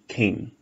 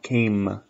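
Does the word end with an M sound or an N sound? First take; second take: N sound; M sound. First: The word ends with a sound like N. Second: The word ends with a closed-lip M sound. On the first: The speaker calls it right. "it's more or less pronounced like an N" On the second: The speaker calls it wrong. "So it's not came"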